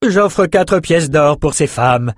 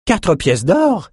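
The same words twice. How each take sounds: First: Slow, higher noblewoman's bid; Elsa bidding. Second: Slow, much higher outraged question; indignant bidder balking at the price. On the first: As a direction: lay out the offer slowly. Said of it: "dit Elsa". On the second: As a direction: scoff at the price. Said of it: "s'indigna une enchérisseuse". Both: A narrator's reading.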